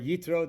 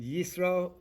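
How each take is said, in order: First: The middle consonant is a t sound. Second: The middle consonant is an s sound. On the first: "or you pronounce it as a Tough" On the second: "whether you pronounce it uh, the, the Hebrew letter Suf"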